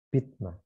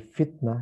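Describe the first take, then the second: First: The word begins with a p sound. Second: The word begins with an f sound.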